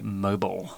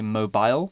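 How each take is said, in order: First: It is said with an American pronunciation. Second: It is said with a British pronunciation. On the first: "whereas in the U S, they might say mobile" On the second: "In the U K, in British English, we tend to say mobile"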